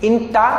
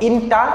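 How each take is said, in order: Both takes have the same delivery.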